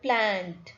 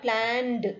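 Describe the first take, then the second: First: The ending is a short final consonant. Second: The ending is a separate 'ed' syllable. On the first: The speaker calls it right. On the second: The speaker calls it wrong.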